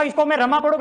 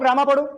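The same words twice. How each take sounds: First: रमा with a short first a, ra-ma; short Rama. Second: रामा with a long first aa, raa-ma; long Raama. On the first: Teacher showing a child the short reading of रमा. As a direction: say रमा quickly as ra-ma, short vowel. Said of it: "इसको रमा पढ़ना है". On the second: Teacher showing a child the long reading of रामा. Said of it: "रामा पढ़ना है". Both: Shown as a demonstration.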